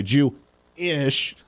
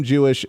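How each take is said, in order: First: JEW-ISH slowly broken in two, with a gap before "ish"; split word. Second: Said in the usual way. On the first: Acted. Host mocks how he put his heritage, "Jew-ish" split slowly in two. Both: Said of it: "how he's trying to put it".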